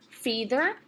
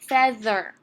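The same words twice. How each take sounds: First: The first vowel is a long E sound. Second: The first vowel is a short E sound. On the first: The speaker calls it wrong. "Let's try the long E sound first" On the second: The speaker calls it right. "It's going to make a short vowel that time"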